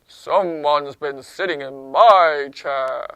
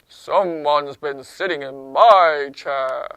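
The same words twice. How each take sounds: First: It is said in a low-pitched voice. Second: The same.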